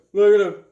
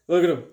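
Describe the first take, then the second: First: "Look at him" again, much louder and higher; excited repeat. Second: Said in the usual way. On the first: Real, not acted. Collector showing the cover to viewers, excited louder repeat. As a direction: burst out with delight on "Look at him".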